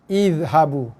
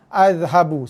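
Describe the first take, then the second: First: The word begins with an 'i' vowel. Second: The word begins with an 'a' vowel. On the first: The speaker calls it right. "kita baca dia dengan baris bawah" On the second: The speaker calls it wrong. "sepatutnya alif topi ni kita baca baris atas lah"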